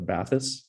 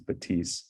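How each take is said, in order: First: It is said as English spelling suggests. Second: It is said with a French pronunciation. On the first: A common North American misreading. The speaker calls it wrong. "just read the spelling and think it's the Bathys" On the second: The name's original pronunciation. The speaker calls it right. "the French pronunciation is, is Batisse"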